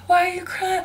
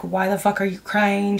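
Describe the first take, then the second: First: High-pitched mock-sympathy taunt. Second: Imitating her rudeness, barely raised; retold rude question. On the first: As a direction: imitate someone making fun, pitched way up. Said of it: "making fun of me or whatever". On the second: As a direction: toss off a blunt retold jab in your usual pitch. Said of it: "She was being so rude".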